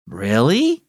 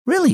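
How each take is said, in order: First: "Really?" with a rising, questioning tune. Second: "Really," with a short falling tune; falling answer. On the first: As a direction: ask "Really?" rising at the end. Son asks in surprise. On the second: Mother confirms. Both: Acted.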